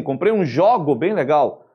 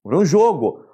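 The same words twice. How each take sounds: First: Jogo said with open o, jógo, as a mistake; wrong open o. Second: Jogo with closed o, jôgo, the right way; correct closed o. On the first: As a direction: mispronounce jogo as jógo for the noun. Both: Shown as a demonstration. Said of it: "Você não vai falar assim".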